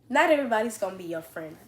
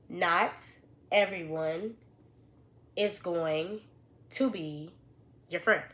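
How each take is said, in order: First: It is said at normal, quicker speed. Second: It is said slowly and deliberately.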